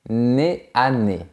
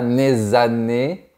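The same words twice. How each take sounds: First: The words are said without a linking consonant. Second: A linking consonant joins the words. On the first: The speaker calls it right. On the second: The speaker calls it wrong. "on ne dit pas"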